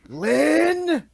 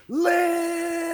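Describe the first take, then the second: First: Very high, very loud yell; full-force outburst; enraged shout. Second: Long, high, drawn-out yell; prolonged shout as if heard from outside; Swifty shouting. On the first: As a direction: bellow the name as a hand slams the table. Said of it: "smashes his hand down on the table and goes". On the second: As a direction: hold the name in one long scream that fades out. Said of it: "you can still hear him shouting". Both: Acted.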